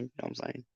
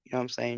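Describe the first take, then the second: First: Much softer, trailing off; quiet repeat. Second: Said in the usual way. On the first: Real, not acted. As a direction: let it fade away. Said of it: "repeated, fading". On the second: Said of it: "repeated question".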